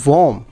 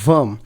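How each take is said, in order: First: The vowel sounds like 'or' in 'warm'. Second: The vowel sounds like 'er' in 'her'. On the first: The speaker calls it wrong. "बहुत से लोग इसको गलत बोलते हैं, वो पढ़ते हैं वॉर्म" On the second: The speaker calls it right. "हम ओ को इसमें ई की तरह पढ़ते हैं और ये पढ़ा जाता है वर्म"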